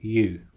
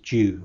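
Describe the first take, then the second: First: The word starts with a clear 'y' sound. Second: The word starts with a 'j'-like sound. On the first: The speaker calls it right. "rather than you" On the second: The speaker calls it wrong. "it was pronounced as you"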